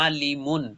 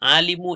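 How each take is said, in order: First: The word ends with an added n sound. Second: The word ends on a short u vowel. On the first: The speaker calls it right. "তানবিন হবে।" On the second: The speaker calls it wrong. "আলিমু এক পেশ না"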